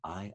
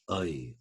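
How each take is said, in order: First: It is said in modern standard British pronunciation. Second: It is said in reconstructed Elizabethan-era pronunciation. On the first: "I in received pronunciation" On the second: "becomes I"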